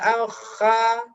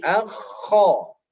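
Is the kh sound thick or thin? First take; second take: thin; thick. First: The syllable sounds thin and light. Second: The syllable sounds thick and heavy. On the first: The speaker calls it wrong. "tidak boleh akha" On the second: The speaker calls it right. "suaranya akan menjadi tebal"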